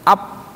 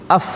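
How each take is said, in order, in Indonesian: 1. Diakhiri dengan kedua bibir tertutup, bunyi p. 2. Diakhiri dengan hembusan udara keluar, bunyi f. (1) "Jangan dua bibir rapat. Jadinya ap" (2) "Jadi fa itu kalau dia sukun, anginnya keluar tuh"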